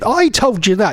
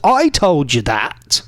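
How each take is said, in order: First: It is said in his ordinary voice. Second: It is said in a put-on dad voice.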